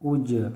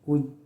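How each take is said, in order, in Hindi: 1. अंतिम व्यंजन गूँज वाले झटके के साथ छोड़ा जाता है। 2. अंतिम व्यंजन बिना गूँज के सपाट रुक जाता है। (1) "कलकला के साथ" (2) "बग़ैर कलकला के"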